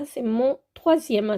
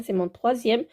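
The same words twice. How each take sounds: First: Said in the usual way. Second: "troisième" stressed as the right number; corrective stress. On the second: Shown as a demonstration. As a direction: lean on "troisième" to correct the slip. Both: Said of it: "C'est pas mon deuxième".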